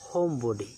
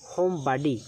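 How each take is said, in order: First: It is said in a British accent. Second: It is said in an American accent. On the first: "British উচ্চারণ হচ্ছে" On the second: "American উচ্চারণ হচ্ছে"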